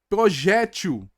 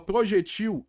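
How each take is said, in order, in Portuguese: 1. A sílaba tônica é a penúltima. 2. A sílaba tônica é a última. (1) "paroxítona terminado em L, acentua" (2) "porque vira uma oxítona terminada em L"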